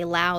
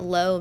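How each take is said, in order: First: The name rhymes with 'cow'. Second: The name rhymes with 'go'. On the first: This is how the family has always said the name. "since it's we're Southern, we just say Lau" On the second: This is how many other people say the name. "a lot of people pronounce it Low"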